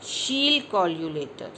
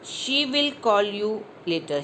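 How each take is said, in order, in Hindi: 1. ये शब्द एक ही शब्दांश में जुड़ जाते हैं। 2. दोनों शब्द पूरे बोले जाते हैं।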